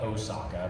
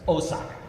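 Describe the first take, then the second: First: Osaka is said with an American pronunciation. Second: Osaka is said with a Japanese pronunciation. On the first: This is how people here usually say it. The speaker calls it wrong. "we call it Osaka" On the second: This is how the name is properly said. The speaker calls it right. "is how it's properly pronounced"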